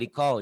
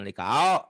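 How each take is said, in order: First: The vowel is a plain o sound. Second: The vowel is an au glide. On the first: The speaker calls it right. "liko liko" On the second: The speaker calls it wrong. "jangan likau"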